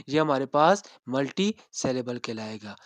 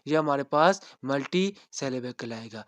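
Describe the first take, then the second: No difference in how they are said.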